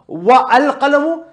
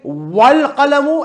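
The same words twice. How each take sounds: First: A glottal catch separates wa from al. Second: Wa runs straight into al without a catch. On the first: The speaker calls it wrong. "I did not say" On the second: The speaker calls it right. "this Hamza in al is a Hamzatul Wasl... if it comes in the middle like here, it's not pronounced"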